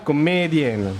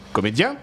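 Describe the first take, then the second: First: It is said in an Italian accent, final N sounded. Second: It is said in a plain French accent. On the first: "elle dira comédienne" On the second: "vous dites comédien"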